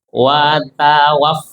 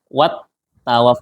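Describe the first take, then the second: First: The first word ends with a plain vowel. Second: The first word ends with an added t sound. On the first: The speaker calls it right. "bukan wat tapi wa" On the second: The speaker calls it wrong. "ada yang baca gini kedengarannya"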